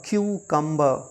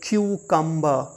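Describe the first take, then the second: First: The word begins with a 'kyoo' sound. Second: The same.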